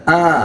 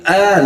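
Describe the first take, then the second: First: The vowel comes from the middle of the throat. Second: The vowel sounds even thinner and lighter. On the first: "ini masuk tengah tenggorokan" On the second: "lebih tipis lagi"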